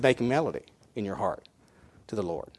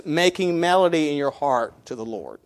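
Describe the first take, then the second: First: Softer, lower quoted verse with "Lord" fading; hushed repeat. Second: Said in the usual way. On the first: Shown as a demonstration. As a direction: lower and hush the verse for weight. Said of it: "He didn't say make rhythm". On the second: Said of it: "He said".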